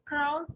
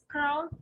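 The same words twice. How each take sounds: First: The vowel sound is a short ow. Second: The vowel sound is a short ow.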